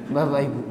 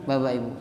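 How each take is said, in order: Both takes have the same delivery.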